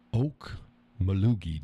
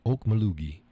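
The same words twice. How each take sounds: First: "Okmulgee" drawn out very slowly, syllable by syllable; slow careful pronunciation. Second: Said in the usual way. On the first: Shown as a demonstration. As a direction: sound out "Okmulgee" slowly like a new word. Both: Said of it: "did I pronounce that right?".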